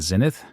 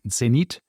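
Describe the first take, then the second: First: It is said with the common English pronunciation. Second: It is said with a Swiss German pronunciation. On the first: Listeners will recognize what is meant. "in the way that everybody pronounces it" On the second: Listeners might not know what is meant. "you're pronouncing it in the Swiss German way"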